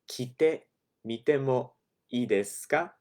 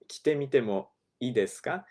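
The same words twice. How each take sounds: First: It is said slowly. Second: It is said fast.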